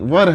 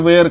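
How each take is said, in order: First: The vowel is short, like in 'fur'. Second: The vowel is long, like in 'wear'. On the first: The speaker calls it right. "इसका जो उच्चारण है वो वर है" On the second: The speaker calls it wrong. "Technically आदमी वेयर वेयर करते रहता है, ये नहीं"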